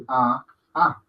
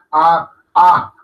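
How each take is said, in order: First: "A, A" gentle and unforced; soft sounds. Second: "A, A" hit hard, second louder; overmarked, like German. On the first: Teacher correcting over-marking, soft gentle "A". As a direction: say each "A" softly, no hard attack. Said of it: "son sonidos suaves". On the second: Teacher showing what to avoid, hard marked "A". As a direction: punch each "A" as if German. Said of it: "como que fuera alemán". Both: Shown as a demonstration.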